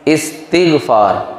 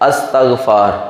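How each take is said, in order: First: The word begins with an 'is' sound. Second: The word begins with an 'as' sound. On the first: The speaker calls it right. "असल में लफ्ज़ क्या है? इस्तिग़फ़ार" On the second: The speaker calls it wrong. "जिसको हम अक्सर पढ़ते हैं अस्तग़फ़ार"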